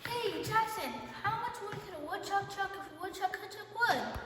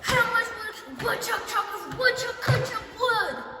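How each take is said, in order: First: It is said in a very curious tone. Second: It is said in a very angry tone.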